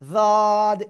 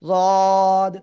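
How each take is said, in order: First: The consonant is light, tongue tip at the teeth. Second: The consonant is heavy, made with a thick voice. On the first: The speaker calls it wrong. "জদ এরকম যেন না হয়" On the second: The speaker calls it right. "তবে মোটা আওয়াজ কিন্তু"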